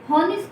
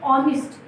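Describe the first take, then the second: First: The word starts with an audible h sound. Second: The word starts directly with a vowel sound. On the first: The speaker calls it wrong. "हॉनेस्ट नहीं बोलते" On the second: The speaker calls it right. "यहाँ हम क्या बोलते हैं, ऑनेस्ट"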